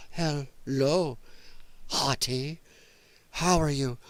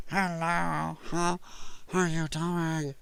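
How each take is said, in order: First: Lower, halting flirtation with pauses between words; broken-up, low mock come-on; mocking her odd voice. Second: Soft, very drawn-out odd greeting; slow, quieter mock greeting, oddly voiced; mocking her stuffed-nose voice. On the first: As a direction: imitate a stilted woman greeting someone, word by word. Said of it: "who she's gonna be going". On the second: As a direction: imitate her with every word stretched and softened. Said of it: "your car fender stuck up your nose".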